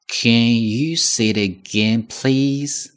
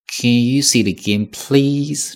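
First: Said in the usual way. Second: Please drawn out and lifted high; please 拉长，显得真诚; longer please. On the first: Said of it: "能再说一遍吗". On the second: Shown as a demonstration. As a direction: stretch please to sound sincere. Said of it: "注意，please".

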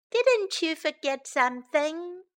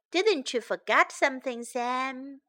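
First: Put-on slightly raised, teasing kid voice; giggly child. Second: Said in the usual way. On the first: A narrator's reading. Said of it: "giggled Sam".

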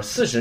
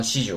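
First: Final "四十" as yonjū in Japanese; required reading of forty. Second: "四十" as shijū, starting with shi; forbidden reading of forty. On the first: Teacher giving the only accepted forty, correct pronunciation. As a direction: say "四十" as yon-jū, long final vowel. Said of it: "必须要读成四十". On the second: Teacher warning against a misreading of forty, wrong pronunciation. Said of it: "不能读成四十". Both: Shown as a demonstration.

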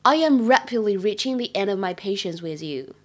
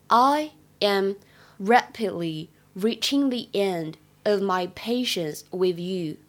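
First: Said in the usual way. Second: Slow, careful teacher read of "rapidly reaching the end"; slow clear demo of "I am rapidly reaching the end of my patience with you"; slow model reading. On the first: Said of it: "朗读". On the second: Shown as a demonstration. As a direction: spell it out slowly for students. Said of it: "在这句话的朗读过程当中".

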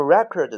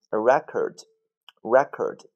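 First: "record" as ri-KORD, second syllable stressed. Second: "record" as REK-erd, first syllable stressed. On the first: Teacher gives the second of two readings, "record" as ri-KORD. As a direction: say "record" slowly as the verb, ri-KORD. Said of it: "第二个读". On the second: Teacher gives the first of two readings, "record" as REK-erd. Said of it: "这个单词有两个发音". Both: Shown as a demonstration.

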